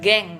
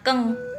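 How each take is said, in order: First: The word begins with a voiced g sound. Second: The word begins with a voiceless k sound. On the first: The speaker calls it wrong. "bukan geng ya bacanya" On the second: The speaker calls it right. "itu juga dibacanya keng"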